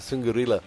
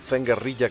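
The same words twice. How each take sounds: First: The name is said with an American pronunciation. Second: The name is said with a Spanish pronunciation.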